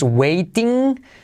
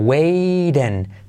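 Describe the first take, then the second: First: The t is a crisp, hard t sound. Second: The t is a soft, r-like flap. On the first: The speaker calls it wrong. "No es waiting" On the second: The speaker calls it right. "sino waiting. T como R suave"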